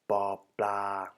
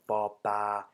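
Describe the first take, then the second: First: The second syllable has an L sound. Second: The second syllable has no L sound. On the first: "spoken with a l" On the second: "spoken without the L"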